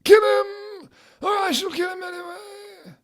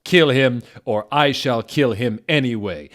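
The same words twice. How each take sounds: First: Very high shrieking villain threat, cracking; Voldemort voice. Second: Louder plain threat; stern threat. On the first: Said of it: "do more of a Voldemort voice". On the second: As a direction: bark the order. Villain threat first read. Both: Acted.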